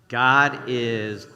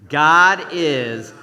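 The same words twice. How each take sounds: First: It is said calmly, with normal energy. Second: It is said loudly, with great energy.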